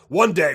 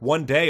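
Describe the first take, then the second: First: It is said in a booming announcer voice. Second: It is said in a plain reading voice.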